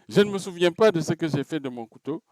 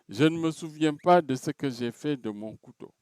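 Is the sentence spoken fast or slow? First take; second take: fast; slow. First: The sentence is spoken at a fast pace. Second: The sentence is spoken at a slow pace.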